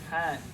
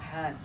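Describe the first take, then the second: First: The h sound is harsh with strong throat friction. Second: The h sound is a plain soft breath. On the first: The speaker calls it right. "It's the hotter. More friction" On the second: The speaker calls it wrong. "It's not han"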